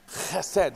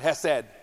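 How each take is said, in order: First: The word starts with a harsh, throaty sound. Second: The word starts with a plain, soft h sound. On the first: The speaker calls it right. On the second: The speaker calls it wrong. "Not Hesed"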